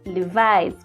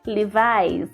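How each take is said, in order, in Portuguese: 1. É dito com pronúncia inglesa. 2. É dito com pronúncia inglesa.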